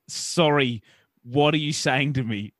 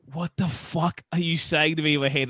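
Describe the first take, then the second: First: Each word slower and spelled out; slow it down for the confused listener. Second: Said in the usual way. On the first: Retold or imitated. To the servo guy, repeating the question slowly. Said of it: "And I slow down again". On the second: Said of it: "And I'm just like".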